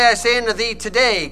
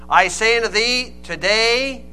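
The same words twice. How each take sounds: First: The pause comes after the word today. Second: The pause comes after the word thee. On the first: Only the saying happens today, not the arrival in paradise. The speaker calls it wrong. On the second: The promise of paradise is for that very day. The speaker calls it right.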